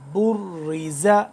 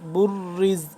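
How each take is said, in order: First: The word ends on a final vowel. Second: The final vowel is dropped; it ends on a consonant.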